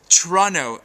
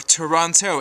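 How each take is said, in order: First: The name is said the way locals say it. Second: The name is said the way outsiders say it. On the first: The speaker is from the city. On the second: The speaker is not from the city.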